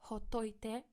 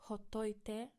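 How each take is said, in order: No difference in how they are said.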